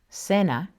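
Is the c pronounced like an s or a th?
s. The c sounds like an s. "it sounds like an S before E or I"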